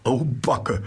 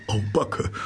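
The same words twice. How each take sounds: First: High panting "au Backe" falling away; a breathless delighted sigh at the end; excited gasp. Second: High panting "Au Backe" with a rising end; the mole gasps with delight at each new find; excited gasp. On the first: Mole unpacking the basket, panting with a falling sigh. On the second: Mole panting with delight over the picnic, high and rising. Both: A narrator's reading. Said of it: "und keuchte".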